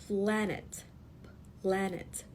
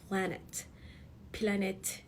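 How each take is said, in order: No difference in how they are said.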